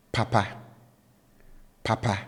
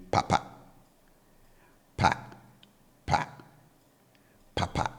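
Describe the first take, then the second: First: Papa said high on both syllables. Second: Papa said low on both syllables. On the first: Teacher modelling papa, good, with high tones. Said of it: "I raise my pitch level on both syllables". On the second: Teacher modelling papa, hand fan, with low tones. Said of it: "I bring the tone on both syllables down". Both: Shown as a demonstration.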